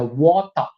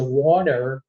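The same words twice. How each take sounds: First: It is said with a British accent. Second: It is said with an American accent.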